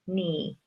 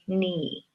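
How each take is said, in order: Both takes have the same delivery.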